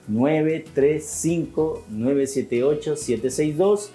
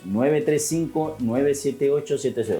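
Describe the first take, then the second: First: The number is read slowly. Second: The number is read at normal speed.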